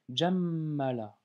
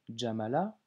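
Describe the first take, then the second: First: The m sound is held long and doubled. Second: The m sound is short and single. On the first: The speaker calls it right. "mais j'ai lu Jammala" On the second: The speaker calls it wrong. "je n'ai pas lu Jamala"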